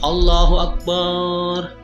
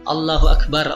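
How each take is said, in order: First: The vowel after b in Akbar is stretched long. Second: The vowel after b in Akbar is kept short. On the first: The speaker calls it wrong. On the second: The speaker calls it right.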